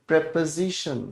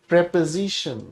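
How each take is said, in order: Both takes have the same delivery.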